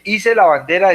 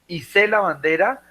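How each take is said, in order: First: Hice as Í-se, meaning made; stress on first syllable. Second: Hice as i-SÉ, meaning hoisted; stress on last syllable. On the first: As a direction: hit the start of hice: Í-se. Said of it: "es que la fabriqué". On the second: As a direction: hit the end of Hice: i-SÉ. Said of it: "la colgué en el". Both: Shown as a demonstration.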